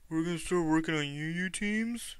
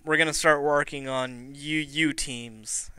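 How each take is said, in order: First: It is said in a funny put-on voice. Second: It is said in a normal voice. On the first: The words are being mocked. "read everything he said in the funniest voice" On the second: These are the original words as written. "let's say he said"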